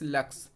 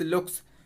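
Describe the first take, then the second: First: The vowel is a short 'uh' sound. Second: The vowel is an 'oo' sound. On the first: This is how the written word is meant to be read. The speaker calls it right. "Dyslexia में हमें उच्चारण हो रहा है लक्स" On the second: This is how a child with a reading problem misreads it. The speaker calls it wrong. "बच्चे क्या करते हैं? लक्स को लुक्स पढ़ते हैं"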